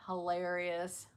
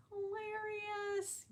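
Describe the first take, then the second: First: Said in the usual way. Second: "Hilarious" drawn out slow, high and soft; slow high quiet "Hilarious"; squeaky high hilarious. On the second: Shown as a demonstration.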